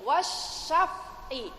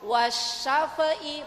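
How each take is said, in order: First: The f sound is held cleanly with no bounce. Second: The f sound is released with a bounce. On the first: The speaker calls it right. "ada fa mati" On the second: The speaker calls it wrong. "bukan wasyafi, bukan gitu"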